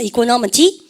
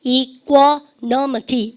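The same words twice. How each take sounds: First: Said in the usual way. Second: "이코노미티" very slowly, broken into syllables; "이코노미티" drawn out for learners to follow; syllable-by-syllable pronunciation. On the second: Shown as a demonstration. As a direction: model "이코노미티" slowly, part by part. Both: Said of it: "발음해보세요".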